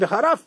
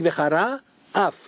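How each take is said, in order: First: The two words run together without a pause. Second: There is a pause between the two words. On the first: It means cursing God. The speaker calls it wrong. "if you say it quickly" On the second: God will be angry. The speaker calls it right. "Instead of saying Vechara, Af"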